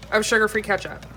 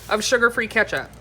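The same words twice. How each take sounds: The two takes are said the same way.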